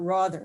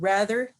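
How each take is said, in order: First: The first vowel sounds like the vowel in father. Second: The first vowel sounds like the vowel in hat. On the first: "as it used to be in the upper class New York accent" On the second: "rhymes with, so to speak, with hat instead of with father"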